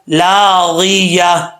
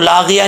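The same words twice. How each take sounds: First: The ya and final h sounds are clear. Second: The ya and final h sounds are swallowed. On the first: The speaker calls it right. "या और हा को क्लियर करना है" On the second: The speaker calls it wrong. "इसको लागिया नहीं पढ़ना"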